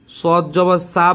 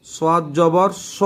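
First: সোয়াদ জবর সা with the a drawn long like সিন; wrong long sa. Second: সোয়াদ জবর স with a short, heavy স, no long a; correct short sa. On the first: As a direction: show the mistake by stretching সা. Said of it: "সিন হয়ে যাবে". (ভুল উচ্চারণ, টেনে সা বলা) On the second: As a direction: say স short and full, not সা. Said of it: "বলতে হবে". (সোয়াদ জবর স, ছোট মোটা স উচ্চারণ) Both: Shown as a demonstration.

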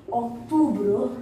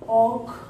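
First: Said in the usual way. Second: "October" with a long pause after "Oc"; syllable by syllable. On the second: Shown as a demonstration. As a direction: break "October" into "Oc... tobre". Teacher splits the word for learners.

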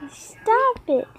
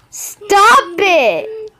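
First: High, softened whine; softer protest. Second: Protesting yell. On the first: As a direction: repeat it small and high, pleading. Repeats protest more softly. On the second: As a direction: yell it out in a raised pitch. Protesting during play. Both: Pretend.

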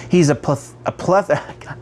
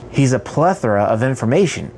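First: "pleth-" cut off twice after the first syllable; real false starts on "pleth-"; tongue-tied stumble. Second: Said in the usual way. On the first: Real, not acted. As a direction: get stuck on "pleth-" and try it twice. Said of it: "I can't say this word". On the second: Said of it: "Got it".

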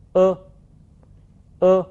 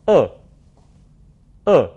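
First: 呃 as French "eu" with lips pushed forward and rounded; sustained, level 呃 with rounded lips; rounded French vowel. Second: 呃 as French open "œ", lips thrust further forward; short, falling 呃 as in French "peur"; tenser rounded vowel. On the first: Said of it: "嘴唇要向前突出，呈比较圆的形状". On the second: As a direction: say 呃 with tightened mouth muscles and rounded lips. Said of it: "嘴唇要向前更加的突出". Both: Shown as a demonstration.

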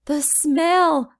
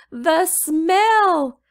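First: Put-on choking little boy. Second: Put-on louder, higher desperate child cry; choking little boy. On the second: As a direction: wail it as he sinks down. Little boy falling to knees.

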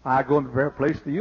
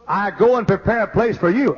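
First: Fast rote recital, meaning not felt; rattled off by rote. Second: Heartfelt, wondering reading; felt from the heart. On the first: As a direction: rush it like a line learned by heart. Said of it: "We all know that in the mind". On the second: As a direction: let the promise land in your heart. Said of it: "think that in your heart like this". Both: Shown as a demonstration.

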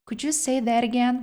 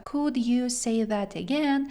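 First: Could you say that again with a lift on you; with intonation. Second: Said in the usual way. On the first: Shown as a demonstration. Teacher adds natural intonation to the repeated phrase. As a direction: give Could you say that again a lively tune. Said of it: "І ми трошечки додамо інтонації вимови". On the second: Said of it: "додамо інтонації".

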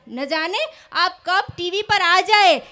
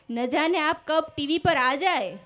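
First: Louder, slow, dramatic shayari delivery of "ન જાને આપ કબ ટીવી પર આ જાએ"; emphatic repeat. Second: Said in the usual way. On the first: Shown as a demonstration. Comedian repeating the fan's shayari line, louder and slow. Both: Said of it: "repeats the couplet line for effect".

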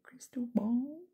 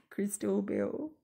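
First: "Crystal Ball" whispered with a clear aw vowel; whispered correction. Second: "Crystal Bill" with a short i vowel, said slowly; strong-accent mishearing. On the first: Checking the real name under her breath, whispered. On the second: Viewer misreading a name in a strong accent, slow. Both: Shown as a demonstration. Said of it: "depends what accent you have".

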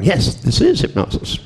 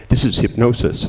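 First: Higher, teasing yes; playfully echoing the doctor's claim; mock agreement. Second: Lightly voiced doctor, matter-of-fact; mild doctor insisting it's only hypnosis; doctor's verdict. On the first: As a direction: agree with a knowing, playful lift. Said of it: "And I'm going". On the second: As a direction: state it like a sceptical doctor. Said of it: "the doctors are going".

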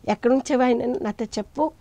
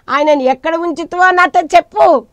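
First: Said in the usual way. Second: High, loud acted plea; preacher voicing an insistent plea; urgent demand. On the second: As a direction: raise the voice, demanding an answer. Voices Mary's demand to the gardener.

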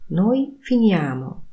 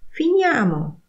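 First: Said in the usual way. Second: "Finiamo" much higher, falling; urge: "Finiamo!"; commanding tune. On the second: Shown as a demonstration. Teacher models "Finiamo" as a high, falling suggestion. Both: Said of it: "intonacja powodują".

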